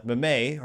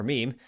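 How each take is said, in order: First: "meme" spoken as two syllables, MEH-may. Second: "meme" said the standard way, one syllable rhyming with team; meme said normally. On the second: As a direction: say "meme" as one long "meem". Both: Shown as a demonstration. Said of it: "the meme or meme".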